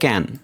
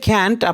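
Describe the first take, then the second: First: The final t sound is silent. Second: The final t sound is clearly heard. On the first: "আপনি শুনতেছেন যে ক্যান, তার মানে টিটা তারা সাইলেন্ট রেখেছে" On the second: "তারা বলবে যে ক্যান্ট"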